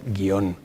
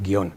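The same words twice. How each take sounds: First: The word is said as two syllables. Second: The word is said as one syllable. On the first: "casi haciendo dos sílabas" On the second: "es raro que nosotros digamos guión"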